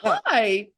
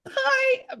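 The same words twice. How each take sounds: First: It is said in a normal voice. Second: It is said in a high squeaky voice.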